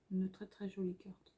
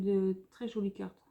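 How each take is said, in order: First: Soft breathy whisper, no voice. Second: Said in the usual way. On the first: Real, not acted. Vlogger showing paper pad, whispering to viewers. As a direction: drop to a hushed whisper on très jolies cartes. Repeats phrase, second time whispered.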